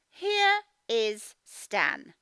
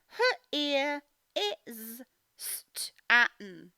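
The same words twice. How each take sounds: First: Said in the usual way. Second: Her ear is Stan read slowly as separate words her and ear; broken reading. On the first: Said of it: "correct reading". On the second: Shown as a demonstration. Teacher showing the wrong way to read here. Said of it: "wrong reading then right one".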